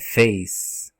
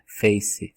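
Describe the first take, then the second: First: It ends with an 's' sound, no vowel. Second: It ends with an added vowel sound. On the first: The speaker calls it right. "esse E no final, ele é mudo" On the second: The speaker calls it wrong. "O pessoal fala face"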